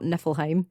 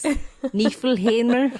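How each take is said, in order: First: The word ends without a final r sound. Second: The word ends with a final r sound. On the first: The speaker calls it wrong. "it's not Niflheim" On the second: The speaker calls it right. "it's Niflheimr"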